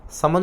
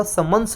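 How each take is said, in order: First: समन with no s at the end; the faulty समन, stopping on the n; wrong form समन. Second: समन्स with a final s sound; careful समन्स, ending "-ns"; correct समन्स. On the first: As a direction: say समन as "saman". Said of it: "समन नहीं होगा". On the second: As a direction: say समन्स as "samans". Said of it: "समन्स बोलेंगे इसको". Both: Shown as a demonstration.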